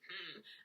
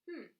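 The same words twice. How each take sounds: First: It sounds grumpy and displeased. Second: It sounds like attentive, conversational listening.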